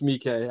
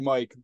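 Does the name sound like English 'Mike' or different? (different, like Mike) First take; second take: different; like Mike. First: The name does not sound like English Mike. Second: The name sounds like the English name Mike. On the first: The speaker calls it right. "but it's Miike" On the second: The speaker calls it wrong. "I used to say it wrong for years. I used to call him Takashi Mike"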